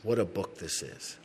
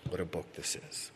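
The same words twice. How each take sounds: First: Said in the usual way. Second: Dropped to a near hush, in awe; hushed repeat. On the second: Shown as a demonstration. Pastor repeating to the congregation, hushed in awe. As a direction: repeat it softly, almost to himself.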